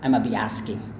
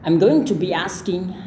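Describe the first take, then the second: First: 'Going to' is squeezed into a short blended sound. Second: Every sound of 'going to' is said clearly. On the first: "kemudian berubah menjadi" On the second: "berubah menjadi"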